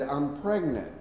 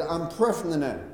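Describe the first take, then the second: First: A wife gently slowing down her news; slowed down. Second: Said in the usual way. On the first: Retold or imitated. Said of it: "the third time she slows it down for me a little bit". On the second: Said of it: "the third time she slows it down".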